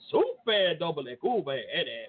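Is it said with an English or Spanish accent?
Spanish. It is said with a Spanish accent.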